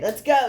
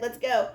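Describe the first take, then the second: First: Excited. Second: Said in the usual way. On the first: Acted. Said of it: "I know, I'm getting excited". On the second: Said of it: "I said I wouldn't yell".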